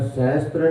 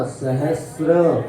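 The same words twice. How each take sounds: First: सहस्त्र said with a t sound, tra; the mistaken सहस्त्र, with tra; सहस्त्र as people wrongly say it; wrong pronunciation. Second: सहस्र slowly, with a clear sra and no t; सहस्र said slowly and correctly; correct pronunciation. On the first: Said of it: "सहस्त्र नहीं पढ़ना". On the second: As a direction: draw out सहस्र, stressing sra. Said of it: "इसी प्रकार स्र बोलना". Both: Shown as a demonstration.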